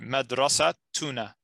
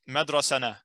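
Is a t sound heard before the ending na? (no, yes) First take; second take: yes; no. First: A t sound is pronounced before na. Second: The t sound before na is dropped. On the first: The speaker calls it right. "So it'll be madrasa tuna" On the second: The speaker calls it wrong. "No, then we have to pronounce the tamarbuta"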